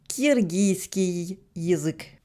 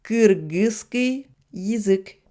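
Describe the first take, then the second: First: The vowels in the first word are soft. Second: The vowels in the first word are hard. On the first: This is the usual Russian habit. The speaker calls it wrong. "l'habitude des Russes est de prononcer" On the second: This is how it should be said. The speaker calls it right. "ça devrait s'écrire et se prononcer"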